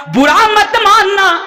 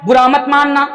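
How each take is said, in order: First: High, slow, ringing appeal; emphatic plea. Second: Said in the usual way. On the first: Real, not acted. Preacher asking his brothers not to take offence, ringing plea. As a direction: call it out with drawn-out words. Forceful first plea to congregation.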